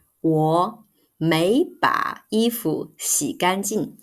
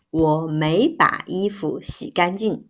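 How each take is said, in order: First: 我没把衣服洗干净 said slowly, word by word; slow model sentence. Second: Said in the usual way. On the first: Shown as a demonstration. Teacher modelling the correct sentence slowly. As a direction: spell out 我没把衣服洗干净 slowly for learners. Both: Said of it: "We need to say".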